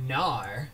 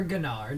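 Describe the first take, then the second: First: Gnar said as "NAR"; silent G in Gnar. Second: Gnar said as "guh-NAR"; sounded G in Gnar. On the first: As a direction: say Gnar starting straight on the N. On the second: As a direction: say Gnar with a hard G before the N. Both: Shown as a demonstration. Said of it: "depending on how you wanna say it".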